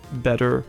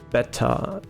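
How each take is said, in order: First: It is said with an American accent. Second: It is said with a British accent. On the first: "like how Americans would pronounce this" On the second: "Like how they say beta"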